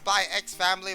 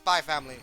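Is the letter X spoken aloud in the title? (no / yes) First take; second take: yes; no. First: The letter X is spoken between the words. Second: The letter X is left out entirely. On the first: "It's Spy X Family" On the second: "they don't say it"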